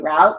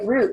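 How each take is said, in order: First: The vowel is an 'ow' sound. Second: The vowel is a long 'oo' sound. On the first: "you're going to write it as R O U T" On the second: "you're going to write it as R long U T"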